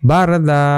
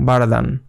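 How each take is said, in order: First: The word ends in a stretched long a vowel. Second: The word ends with an n sound. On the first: The reader stops at this word. "এখানে এক আলিফ টানতে হবে" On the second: The reader does not stop at this word. "বারাদান হয়ে যেত"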